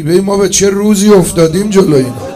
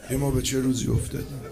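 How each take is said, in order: First: Loud anguished wail on «روزی»; crying out lament. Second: Soft fast murmur of «ما به چه روزی»; quiet broken echo. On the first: Preacher laments to mourners, loud anguished cry. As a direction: cry it out to the crowd. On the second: Preacher repeats lament to mourners, hushed. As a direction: let it collapse into a hushed echo. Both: Real, not acted.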